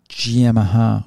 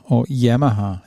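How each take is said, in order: First: "Yamaha" started with a sh sound, like shee-em-aha; first try at the name. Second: "Yamaha" begun with a y sound, yem-aha; second try at the name. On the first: Unsure of a fighter's name, tries sh-start "Yamaha". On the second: Correcting his own pronunciation, y-start "Yamaha". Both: Shown as a demonstration. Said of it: "however you say his name".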